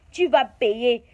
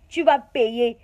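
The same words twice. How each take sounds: The two takes are said the same way.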